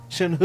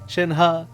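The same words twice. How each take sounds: First: Shen He with an "he" ending, falling; pronounced Shen He. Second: Shen Ha with an open "ha" ending; pronounced Shen Ha. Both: Shown as a demonstration. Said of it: "there's a different pronunciation there in the end".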